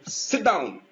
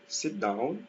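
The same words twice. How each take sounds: First: It is said as a firm command. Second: It is said as a friendly invitation. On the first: The listener is being ordered to sit. "it's an order" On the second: The listener is being invited to sit. "it is invitation"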